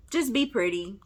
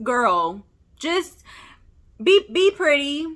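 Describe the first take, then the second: First: Said in the usual way. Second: Exasperated plea. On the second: Pretend. Vlogger begging the actress to drop the accent, exasperated. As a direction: beg her to just be pretty. Pleading with Haley to just act.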